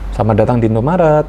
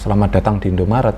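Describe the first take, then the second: First: The greeting sounds warm and friendly. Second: The greeting sounds flat and unfriendly. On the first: The speaker calls it right. "itu kan ramah ya" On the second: The speaker calls it wrong. "dari intonasi aja itu udah beda"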